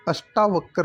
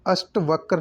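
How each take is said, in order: First: अष्टावक्र with long "taa"; correct pronunciation. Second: अष्टवक्र with no long aa after t; wrong pronunciation. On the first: Teacher correcting the word, अष्टावक्र with taa. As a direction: say अष्टावक्र as "ash-taa-vakar". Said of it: "होता है". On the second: Teacher showing the error, अष्टवक्र without the aa. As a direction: say अष्टवक्र as "asht-vakar". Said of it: "नहीं होता". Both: Shown as a demonstration.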